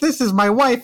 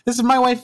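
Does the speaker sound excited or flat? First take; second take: excited; flat. First: It is said in an excited, lively way. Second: It is said in a flat, low-energy way. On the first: The speaker calls it right. "I should sound more excited" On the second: The speaker calls it wrong. "That was lame"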